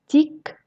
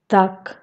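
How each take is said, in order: First: "tic" with a soft, palatalized Russian t; soft consonant. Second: "tac" with a hard, unpalatalized t; hard consonant. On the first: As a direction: soften the t of "tic" with the tongue raised to the palate. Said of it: "en consonnes molles". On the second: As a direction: keep the t of "tac" hard before the a. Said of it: "les consonnes dures". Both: Shown as a demonstration.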